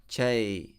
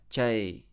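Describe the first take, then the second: No difference in how they are said.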